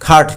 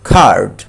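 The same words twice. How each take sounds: First: The vowel is short. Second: The vowel is long. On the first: The speaker calls it wrong. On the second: The speaker calls it right.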